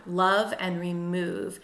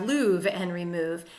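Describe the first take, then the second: First: Said in the usual way. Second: Love rhymed with remove, said "louvre"; "louvre" to rhyme with remove. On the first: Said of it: "it looks like it rhymes on paper". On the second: Shown as a demonstration. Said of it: "Otherwise, we'd have".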